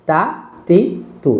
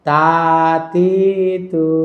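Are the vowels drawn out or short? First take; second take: short; drawn out. First: The vowels are short and quick. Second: The vowels are drawn out and lengthened. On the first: The speaker calls it right. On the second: The speaker calls it wrong.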